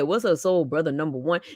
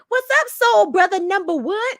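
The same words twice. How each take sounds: First: It is said in a deep, put-on voice. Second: It is said in a light voice without bass. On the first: This is how the role should have sounded. The speaker calls it right. "you change your voice" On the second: This is how the actor actually sounded. The speaker calls it wrong. "He have no bass, zero bass in his voice"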